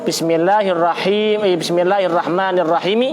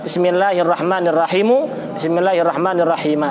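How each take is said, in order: No difference in how they are said.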